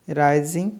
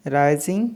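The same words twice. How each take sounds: The two takes are said the same way.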